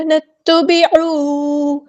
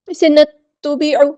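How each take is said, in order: First: نتبعوا with the و held two counts, slow; two-count madd. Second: نتبعوا said quickly with the long vowel cut short; the mistaken way, no length; wrong reading. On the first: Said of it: "دو حرکات یعنی ٹو counts". (واو کو دو حرکات لمبا کریں) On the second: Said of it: "ایسے نہیں پڑھنا". (غلط انداز، مد چھوٹا) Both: Shown as a demonstration.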